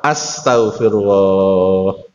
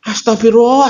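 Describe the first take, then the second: First: It is said softly in a humble, concerned tone. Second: It is said in a raised, scolding, exasperated tone. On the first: It expresses humility and concern before God. The speaker calls it right. "dengan nada yang tepat" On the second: It expresses exasperation at a naughty child. The speaker calls it wrong. "nadanya ibu-ibu"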